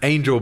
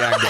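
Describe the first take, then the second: First: The name is said with an English pronunciation. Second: The name is said with a Spanish pronunciation. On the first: The speaker calls it wrong. "I'm very aware that it's probably not the correct pronunciation, but the way I'm reading it" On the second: The speaker calls it right. "it's probably Angel"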